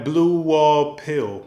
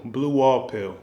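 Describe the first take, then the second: First: Blue Wall Pill said slowly and higher, each word drawn out; slow title stress. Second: Said in the usual way. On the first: Shown as a demonstration. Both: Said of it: "this one was called".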